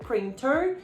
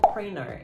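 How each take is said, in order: First: The T sound in the middle is pronounced. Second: The T sound in the middle is dropped.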